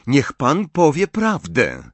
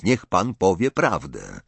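First: Higher, louder order to an adult; forceful command. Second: Said in the usual way. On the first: A narrator's reading. Distrustful boy orders Dumbledore to be honest, commanding. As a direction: demand it as if used to being obeyed. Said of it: "Ostatnie dwa słowa wypowiedział z taką mocą".

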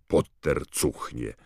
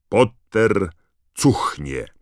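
First: Said in the usual way. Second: Loud, punched words with a pause between; proclaimed insult. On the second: A narrator's reading. The badge reveals its slogan, loudly proclaimed insult. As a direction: announce the insult word by word. New mocking slogan read out.

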